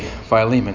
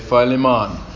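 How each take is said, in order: First: The name is said the plain way. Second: The name is said the Jamaican way. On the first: "but I just say Philemon" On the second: "The Jamaicans say Philemon"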